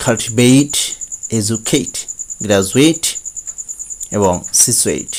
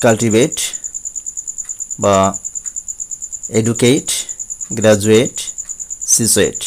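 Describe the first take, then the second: First: কাল্টিভেট ending in a clear এইট; correct pronunciation. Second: কাল্টিভেট with a flat এট ending; the usual mistake, short এট at the end; common wrong pronunciation. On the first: Teacher giving the right version after the wrong one, ending in এইট. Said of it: "কিন্তু উচ্চারণ হবে". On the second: Teacher showing students the usual error, a flat ending. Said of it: "আমরা সাধারণত বলে থাকি". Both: Shown as a demonstration.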